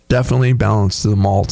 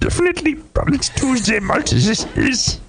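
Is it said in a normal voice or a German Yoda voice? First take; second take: normal; German Yoda. First: It is said in his normal voice. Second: It is said in a German-accented Yoda voice.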